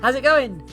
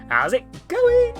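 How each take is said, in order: First: The voice is rougher and more gravelly. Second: The voice is smoother, less gravelly.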